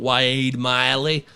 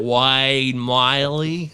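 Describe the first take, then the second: First: Slow, drawn-out name with an odd twang; slipped into a mock Australian lilt; accidental Australian twang. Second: Very slow, drawn-out Aussie vowels; lightly mock Australian; mock Australian accent. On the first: Real, not acted. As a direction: stretch the name out like an Aussie. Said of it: "I don't know why I said like that". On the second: Shown as a demonstration. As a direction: drag the name out in a jokey Australian accent. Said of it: "I sound like I'm Australian".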